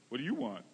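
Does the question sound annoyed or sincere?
annoyed. It sounds curt and annoyed.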